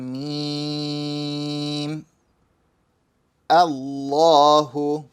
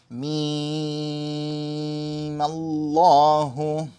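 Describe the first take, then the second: First: Each word is said separately, with the alif sounded. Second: Mim runs straight into lam, with the alif skipped. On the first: The reader stops after each word. "let's say I said each word separately" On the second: The reader continues from the previous word. "you're going straight from the mim to the lam. You're skipping over the alif sound"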